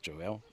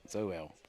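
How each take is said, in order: First: The name begins with a J sound. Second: The name begins with a Z sound. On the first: The speaker calls it wrong. "not Joel" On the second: The speaker calls it right. "Zoel, not Joel"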